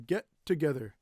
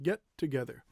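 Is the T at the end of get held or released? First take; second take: held; held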